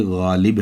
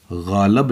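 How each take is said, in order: First: "गालिब" with a short i in the last syllable; "गालिब" ending clearly in -lib, not -lab; correct Ghalib. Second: "गालब" with a short a in the last syllable; the misreading "गालब", ending in -lab rather than -lib; mispronounced Ghalib. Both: Shown as a demonstration. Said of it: "गालब नहीं है बल्कि गालिब है".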